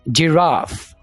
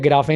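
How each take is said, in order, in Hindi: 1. यह j से शुरू होता है और f पर खत्म होता है। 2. यह g से शुरू होता है और स्वर पर खत्म होता है। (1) "जीम आ गई" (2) "या गिराफे नहीं बोलना"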